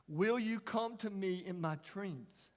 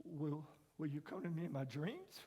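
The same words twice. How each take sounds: First: Put-on slow, tender retelling of the boy's words; slow child's question. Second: Put-on much softer, hushed echo of the boy's question; soft repeat. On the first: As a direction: let each word land slowly. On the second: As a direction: repeat it almost under the breath. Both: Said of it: "he said those eight words".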